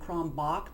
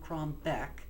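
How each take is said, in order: First: The name ends with a German 'bach' sound. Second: The name ends with an English 'back' sound. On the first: The speaker calls it wrong. "that's the German pronunciation" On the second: The speaker calls it right. "back, that was it"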